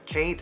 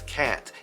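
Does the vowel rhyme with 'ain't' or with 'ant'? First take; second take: ain't; ant. First: The vowel rhymes with the word ain't. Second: The vowel rhymes with the word ant.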